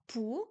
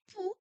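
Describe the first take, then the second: First: "pou" said again with the fixed tone; corrected tone. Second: "pou" said with a slip in the tone; wrong tone. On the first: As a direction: fix the tone on "pou". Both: Shown as a demonstration. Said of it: "non, pou".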